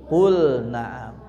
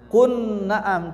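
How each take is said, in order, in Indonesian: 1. Lam dibaca jelas sebelum n. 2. Lam melebur ke dalam bunyi n yang mengikutinya. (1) "tapi qul na'am" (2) "tidak dibaca kun na'am"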